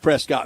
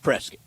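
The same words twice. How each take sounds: First: The name is pronounced just as it is spelled. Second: The name is pronounced differently from its spelling. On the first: This is how the spelling suggests saying it. The speaker calls it wrong. "It looks like Prescott" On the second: This is how the town's name is actually said. The speaker calls it right. "but it's Prescott"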